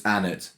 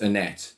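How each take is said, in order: First: ANNETTE stressed on the first syllable; correct pronunciation. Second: ANNETTE stressed on the second syllable; wrong pronunciation. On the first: Co-host teaching the actress's own pronunciation, front-stressed Annette. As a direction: say Annette as ANN-it, second syllable weak. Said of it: "what she said her name is pronounced as". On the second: Co-host showing the name they got wrong, end-stressed Annette. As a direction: say Annette as uh-NET, weight on the end. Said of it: "how to pronounce Annette". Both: Shown as a demonstration.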